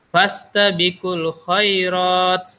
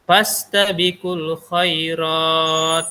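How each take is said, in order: First: The long vowel is held for four beats. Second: The long vowel is held for six beats. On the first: "boleh empat" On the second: "sampai enam harkat"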